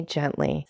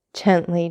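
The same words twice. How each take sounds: First: "gently" repeated softer, smiling and calming; smiling, gentle. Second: Said in the usual way. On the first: A narrator's reading. Old father calming his eager son, a softer smiling "gently". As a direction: ease off on the second "gently", softer. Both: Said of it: "said the old man with a smile".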